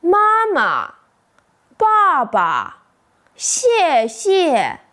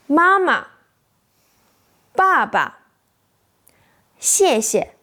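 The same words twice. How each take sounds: First: "妈妈， 爸爸， 谢谢" with both syllables given full tone and equal stress; every syllable of "妈妈", "爸爸", "谢谢" stressed evenly, like a robot; robotic full tones. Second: Second syllable of "妈妈", "爸爸", "谢谢" dropped light and quick; neutral tone, light second syllable. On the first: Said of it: "say both syllables with full tone". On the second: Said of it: "That's exactly the neutral tone in Chinese". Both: Shown as a demonstration.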